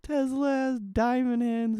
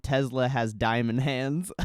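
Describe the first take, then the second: First: High, slow smug crypto bro; mock the tweet in a high drawn-out voice. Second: Said in the usual way. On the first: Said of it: "he fucking tweets". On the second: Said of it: "Elon Musk just tweeted".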